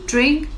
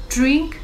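The two takes are said the same way.

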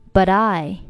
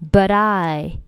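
First: The t of but links into I. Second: The same.

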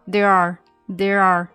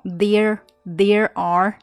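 First: The two words run together smoothly. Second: The two words are said cleanly and separately. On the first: The speaker calls it right. "从there are 这里呢会比较连起来哈。There are 是这样的" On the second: The speaker calls it wrong. "没有很clean 的那种there are 不是这样非常干净的"

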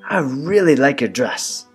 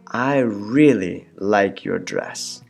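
First: It is said at normal speed. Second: It is said very slowly.

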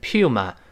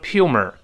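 First: The word ends with no r sound. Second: The word ends with an added r sound. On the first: The speaker calls it right. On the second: The speaker calls it wrong.

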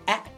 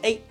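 First: The vowel is a short a sound. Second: The vowel sounds like the letter name. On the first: The speaker calls it right. "而是A Sam" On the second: The speaker calls it wrong. "发的不是A"

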